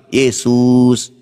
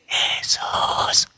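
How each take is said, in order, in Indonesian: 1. Nama Yesus diteriakkan dengan keras. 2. Nama Yesus dibisikkan dengan pelan. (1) "Itu saja kita teriak" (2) "Apalagi kau cuma bisik-bisik"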